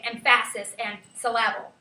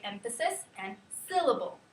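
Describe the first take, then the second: First: "emphasis" as em-FASS-is, "syllable" as sil-LAB-ul; mis-stressed "emphasis" and "syllable", middle vowels full; wrong-syllable stress. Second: Said in the usual way. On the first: Shown as a demonstration. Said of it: "we don't say". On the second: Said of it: "we say".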